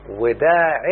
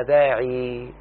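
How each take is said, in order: First: وداع closed with an n, "wa-da'in"; nunated ending. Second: داعي held on a long, slow "ee"; long final ya. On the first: Teacher giving a second indefinite example, nunated. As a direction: end وداع on a short i plus n. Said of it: "لاحظ إنها نكرة". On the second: Teacher showing the word's original form, long final ya. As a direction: draw out the end of داعي without any n. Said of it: "أصلها". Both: Shown as a demonstration.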